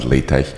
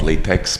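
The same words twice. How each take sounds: First: The word ends with a 'tech' sound. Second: The word ends with a 'tex' sound. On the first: The speaker calls it right. "but LaTeX" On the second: The speaker calls it wrong. "the tech is not latex"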